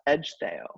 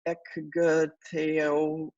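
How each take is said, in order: First: The 'cg' is said as a soft j sound. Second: The 'cg' is said as a hard k sound. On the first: The speaker calls it right. "this is pronounced Edgetheo" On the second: The speaker calls it wrong. "when you're reading, you might go Ekgteo"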